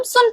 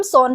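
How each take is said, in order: First: सुन with a short u vowel, "sun"; sun read as spelled. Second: सोन with a clear o vowel, "son"; son read as spelled. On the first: Teacher contrasts the two words, reading sun with u. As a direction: say सुन with u, not o. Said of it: "इसको हम सुन पढ़ेंगे". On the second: Teacher contrasts Spanish spelling with English, reading son. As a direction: read सोन exactly as written. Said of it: "इसको हम सोन पढ़ेंगे". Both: Shown as a demonstration.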